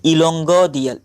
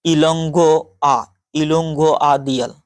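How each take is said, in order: First: इलोंगो दियल, missing the आ; tentative attempt at इलोंगो दियल; mispronounced name. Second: Slow इलोंगो आ दियल with a separate आ; careful, drawn-out इलोंगो आ दियल; corrected pronunciation. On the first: Real, not acted. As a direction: say इलोंगो दियल without आ before दियल. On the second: Shown as a demonstration. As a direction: sound out the आ before दियल. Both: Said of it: "sorry".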